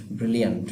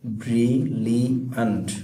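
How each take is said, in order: First: Said in the usual way. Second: brilliant drawn out in three separate syllables. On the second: Shown as a demonstration. Teacher counting syllables for students, brilliant said slowly piece by piece. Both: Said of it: "চার সিলেবলের এটা".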